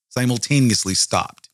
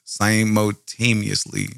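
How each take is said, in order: First: Said in the usual way. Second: Slowly sounding out Simultaneously syllable by syllable; slow careful pronunciation. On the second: Shown as a demonstration. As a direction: spell out Simultaneously slowly, one part at a time.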